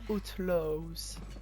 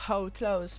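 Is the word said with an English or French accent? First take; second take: French; English. First: It is said with a French pronunciation. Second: It is said with an English pronunciation. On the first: "avec l'accent français" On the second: "pas Outlaws"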